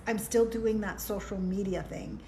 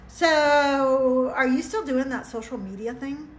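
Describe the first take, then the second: First: "still doing that social media thing" dropped softer and falling, deadpan; flat retort. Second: Rising, prying question with a loud opening "So"; ex's probing question. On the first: She retorts to her ex's question, deadpan. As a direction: answer it back flat and final. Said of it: "And I'm like". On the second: Ex-husband probing her on a phone call, prying tone. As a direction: ask "still doing that social media thing" as a nosy, doubting question. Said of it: "his question to me was this". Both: Retold or imitated.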